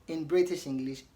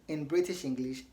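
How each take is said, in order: No difference in how they are said.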